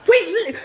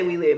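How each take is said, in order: First: High-pitched mock hype cry; hyped-up imitation. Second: Said in the usual way. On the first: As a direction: cheer it high like a hype girl. Imitates sister hyping her up.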